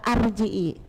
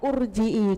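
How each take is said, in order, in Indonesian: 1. Kata ini diawali dengan vokal a. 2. Kata ini diawali dengan vokal u. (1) "Kenapa kok gak arji'i?" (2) "kok gak urji'i?"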